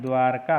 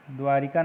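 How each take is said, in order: First: द्वारका as "dwaar-kaa"; two-beat dwaar-kaa for द्वारका; correct form. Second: द्वारिका as "dwaa-ri-kaa"; three-beat dwaa-ri-kaa for द्वारिका; wrong form. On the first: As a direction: go straight from r to k in द्वारका. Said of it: "होता है". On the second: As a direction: put an i after the r in द्वारिका. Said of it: "नहीं होता है". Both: Shown as a demonstration.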